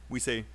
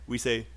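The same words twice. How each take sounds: No difference in how they are said.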